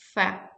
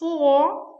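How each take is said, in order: First: The vowel is reduced to a short schwa. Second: The vowel is full and clearly pronounced. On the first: "Like a weekend form is fa" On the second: "Like a strong form"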